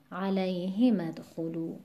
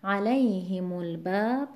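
First: علیهم ادخلوا with "hi" stressed; alay-HI-madkhulu for علیهم ادخلوا. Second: علیهم الباب with "lay" of علیهم stressed; a-LAY-himul-bab for علیهم الباب. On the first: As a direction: put the weight on the ه in علیهم ادخلوا. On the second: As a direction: keep "himu" light in علیهم الباب. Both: Shown as a demonstration. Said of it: "دوتاشو پشت سر هم بخونیم".

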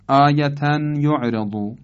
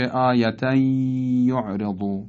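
First: «آیتن یعرضو» with the final n sounded; unmerged reading. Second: «آیتن یعرضو» as āyatay-yu'redu, long held y; idgham. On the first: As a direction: keep āyatan apart from «یعرضو». (خواندن «آیتن یعرضو» با تنوین آشکار) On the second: («آیتن یعرضو» با ادغام تنوین در ی) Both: Shown as a demonstration.

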